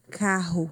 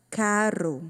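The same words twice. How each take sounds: First: "carro" with a breathy throat R, like KA-ho; don't roll the tongue on the RR of "carro"; double guttural R. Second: "carro" with a tongue-tap R, like "caro"; single tapped R. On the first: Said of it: "Se não dobra, dois R's". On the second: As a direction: flick the tongue once on the R of "carro". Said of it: "Se dobra a língua, é só um R". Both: Shown as a demonstration.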